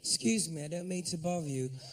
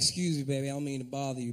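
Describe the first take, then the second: First: It is said in an English accent. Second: It is said in an American accent.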